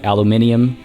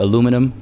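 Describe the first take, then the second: First: It has five syllables, the British form. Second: It has four syllables, the North American form. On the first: "Britishisms ... I will say things like aluminium" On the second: "all Canadians say aluminum"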